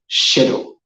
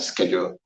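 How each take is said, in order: First: The word is said in a British accent. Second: The word is said in an American accent. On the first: "in British accent" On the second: "in American accent"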